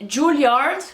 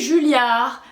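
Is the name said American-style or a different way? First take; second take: American-style; different. First: The name sounds like the American school's name. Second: The name does not sound like the American one. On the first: The speaker calls it wrong. "moi je dis Juilliard, comme il y a l'école américaine" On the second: The speaker calls it right. "mais ça se dit Julliard"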